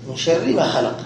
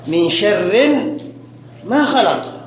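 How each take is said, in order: First: The word sharr is said without a final n. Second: The word sharr is said with a final n. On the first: Refuge is sought from the evil of what was created. The speaker calls it right. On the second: Refuge is sought from an evil that was not created. The speaker calls it wrong.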